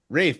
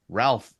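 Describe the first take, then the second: First: The name has no L and a long vowel. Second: The name has an L sound and short vowel. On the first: This is how the actor says his own name. "Rafe, in his case" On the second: This is the usual pronunciation of the name. "the way Ralph usually is"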